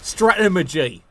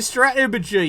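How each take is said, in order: First: It is said in an exaggerated posh accent. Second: It is said in an ordinary everyday accent.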